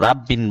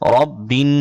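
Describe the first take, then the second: First: The r sound is light and thin. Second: The r sound is heavy and full. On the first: The speaker calls it wrong. "রাব্বিন বলা যাবে না" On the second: The speaker calls it right. "র মোটা করে"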